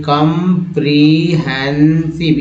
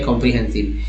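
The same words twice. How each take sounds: First: comprehensive broken slowly into four separate parts; split into parts. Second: Said in the usual way. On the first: Shown as a demonstration. Teacher breaks a word into parts for learners, comprehensive slow and segmented. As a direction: say comprehensive piece by piece, drawing out each part. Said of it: "ये चारों part अलग अलग करके". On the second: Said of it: "एक ही साथ जोड़ के".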